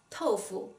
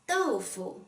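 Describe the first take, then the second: First: The word begins with a 't' sound. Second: The word begins with a 'd' sound. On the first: The speaker calls it wrong. "a lot of non-native speakers will pronounce it as tofu" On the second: The speaker calls it right. "How did you pronounce this word correctly?"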